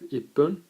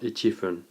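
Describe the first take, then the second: First: The number is shortened with a doubled p sound. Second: The number is said in full before fun. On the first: The speaker calls it right. "So we have ippun" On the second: The speaker calls it wrong. "not ichifun"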